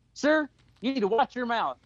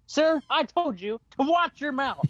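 First: Higher-pitched imitation of an offended woman; mock stern reprimand, not shouted; retold scolding. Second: High, slow, emphatic reprimand; mock stern, each word weighed; escalated retold scolding. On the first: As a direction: act out a first warning. Woman scolds man at game. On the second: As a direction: imitate a woman fed up on her second warning. Woman's second, firmer warning.

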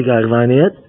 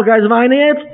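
First: Acted retort, dropped in pitch; low retort. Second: High-pitched mock indignant question; mock indignation. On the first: Other spouse answers about crying, low acted retort. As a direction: answer back in a lowered voice. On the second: Spouse challenged about crying, high mock indignation. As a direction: throw it back in a raised voice. Retold quarrel over crying.

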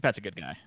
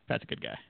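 First: Said in the usual way. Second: Much lower and softer, under the breath; low muttered aside. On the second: Shown as a demonstration. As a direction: mutter it again deep and quiet. Repeated as an aside, dropped low.

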